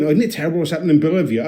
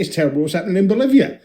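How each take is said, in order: First: Fast, fussy tut-tutting concern; mock Guardian reader. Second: Flat, fast, can't-be-bothered; tossed off without caring; bored indifference. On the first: Mocking a Guardian reader, fast and fretful. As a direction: fake the hand-wringing of a worried newspaper reader. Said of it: "If I was reading The Guardian and going". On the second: Pretend. A Bond fan shrugging it off, fast. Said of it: "I'd be like".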